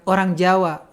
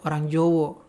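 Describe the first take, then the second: First: The vowels of the second word are 'a' sounds. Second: The vowels of the second word are 'o' sounds.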